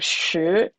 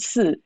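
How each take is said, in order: First: It starts with a curled sh sound. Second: It starts with a plain s sound. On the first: "as you would say in like northern China" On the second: "how can I say it so it sounds Taiwanese um or South China"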